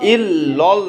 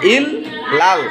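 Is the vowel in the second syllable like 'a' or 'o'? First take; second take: o; a. First: The second syllable has an 'o' vowel. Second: The second syllable has an 'a' vowel. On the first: The speaker calls it wrong. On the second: The speaker calls it right.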